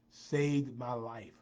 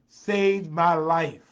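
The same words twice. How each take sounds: First: Slow, drawn-out statement at normal volume; slow emphasis. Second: Slow, much louder proclamation; loud emphatic declaration. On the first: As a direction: stretch each word, falling at the end. Repeats line for emphasis. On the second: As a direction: belt out each word for emphasis. Builds repeated line to emphatic climax. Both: Real, not acted.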